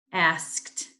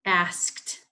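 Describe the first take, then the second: No difference in how they are said.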